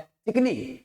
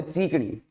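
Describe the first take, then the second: First: चिकनी with a brief first "i"; standard short-vowel चिकनी. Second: चीकनी with a lengthened "cheee"; children's long-vowel चीकनी. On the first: Shown as a demonstration. Teacher showing the actual word, चिकनी with short चि. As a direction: say चिकनी properly, चि kept short. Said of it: "जबकि ये शब्द क्या है?". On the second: Retold or imitated. Teacher quoting how children say it, चीकनी with long ची. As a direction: stretch चीकनी on its first vowel. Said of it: "और बच्चे बोलते चीकनी".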